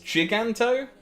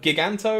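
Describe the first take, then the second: First: The first syllable sounds like the start of giant. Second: The first syllable does not sound like giant. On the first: "as in giant" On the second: "the way I've pronounced it"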